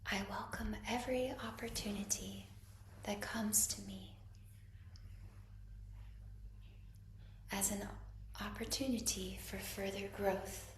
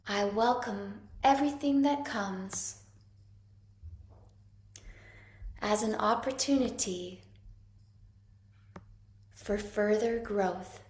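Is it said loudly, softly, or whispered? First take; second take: whispered; loudly. First: It is said in a whisper. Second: It is said loudly.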